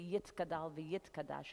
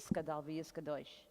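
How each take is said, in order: First: Sephardic pronunciation, with t sounds and ah vowels. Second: Ashkenazi pronunciation, with s sounds and oh vowels. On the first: "it wouldn't be"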